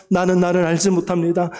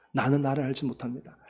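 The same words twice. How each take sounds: First: 나는 나를 알지 못합니다 cried out in prayer; fervent cry. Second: A hushed, humble 나는 나를 알지 못합니다; 나는 나를 알지 못합니다 said quietly to God; quiet prayer. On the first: Real, not acted. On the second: Acted. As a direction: softly confess 나는 나를 알지 못합니다 as an inward prayer. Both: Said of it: "통성으로 기도하겠습니다".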